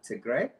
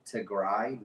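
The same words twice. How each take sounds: First: "Tigray" said tih-GRAY, ending like "day"; showing the mistake, ending in "day"; wrong pronunciation. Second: "Tigray" said tih-GRAI, ending like "eye"; correcting a mispronounced name, ending in "eye"; correct pronunciation. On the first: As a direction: say "Tigray" the way people get it wrong, rhyming with "grey". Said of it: "not Tigray". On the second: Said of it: "is pronounced correctly". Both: Shown as a demonstration.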